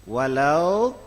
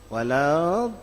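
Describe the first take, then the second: The two takes are said the same way.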